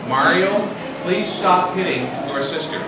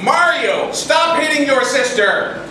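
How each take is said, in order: First: It is said calmly at normal volume. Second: It is said very loudly, close to shouting. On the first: The parent is making a first gentle request. "Parents say calmly" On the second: The parent is close to losing their temper. "And so we say it a little louder"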